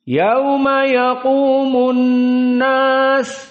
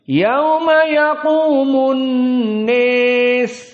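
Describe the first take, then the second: First: The last word has an open 'a' vowel. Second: The last word's vowel is fronted toward 'e'. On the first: This is the standard reading most people use. "dalam keadaan fathah sesuai qiraah Wars" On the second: "dibaca dalam keadaan al-imalah al-kubro"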